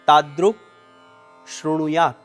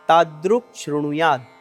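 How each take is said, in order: First: The two words are said as separate words. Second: The two words are joined into one sound. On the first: "છૂટા છૂટા બે શબ્દો" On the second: "આ બંને શબ્દો ભેગા થઈ આ પ્રમાણે ઉચ્ચારણ કરવાનું છે"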